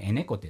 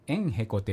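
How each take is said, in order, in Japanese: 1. 短く縮んだ形で言われています。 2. 完全な形で、縮めずに言われています。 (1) "普通はこう縮まってエネコテと" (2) "エンヘコテっていうのを"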